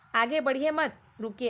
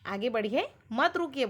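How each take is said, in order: First: The pause comes after the word mat. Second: The pause comes after the word badhiye. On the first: Do not go forward; stop. "आगे मत बढ़ो, रुको बोल रहा है" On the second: Go forward; do not stop. "आगे बढ़िए मत रुकिए बोल रहा है"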